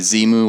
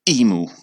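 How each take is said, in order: First: It begins with a z consonant sound. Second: It begins with a glottal stop. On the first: The speaker calls it wrong. "don't look at this and say Zimu" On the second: The speaker calls it right. "This is Emu"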